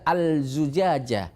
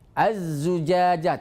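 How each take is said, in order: First: The l is pronounced before the z. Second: The l is dropped and the z is doubled. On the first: The speaker calls it wrong. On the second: The speaker calls it right.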